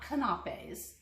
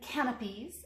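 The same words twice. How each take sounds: First: The word is said not like canopy. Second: The word is said to sound like canopy. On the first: The speaker calls it wrong. "not canapes" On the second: The speaker calls it right. "I think that's how you pronounce it"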